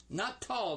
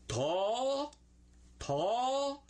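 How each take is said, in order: First: "tall" said with a full hard L as the wrong way. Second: "Tall" high and stretched, the L barely sounded. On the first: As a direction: show the mistake in "tall". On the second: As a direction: model "tall" high for the class to repeat. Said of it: "Don't say the L on it". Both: Shown as a demonstration.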